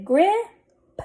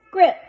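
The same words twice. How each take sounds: First: Grip stretched on a rising tune, p delayed; blended slowly. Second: Said in the usual way. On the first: Shown as a demonstration. Teacher sounding out a word for readers, blended slowly. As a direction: hold the i in grip, lifting it, then add p. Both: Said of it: "Let's read this".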